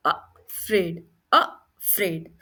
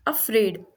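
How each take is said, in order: First: अफ्रेड slowly split after the short अ; slow teacher's breakdown of अफ्रेड; sounding out अ. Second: Said in the usual way. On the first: Shown as a demonstration. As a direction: pause between अ and फ्रेड. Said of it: "इसमें भी अ का sound आ रहा है". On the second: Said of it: "तीसरा example लेते हैं अफ्रेड".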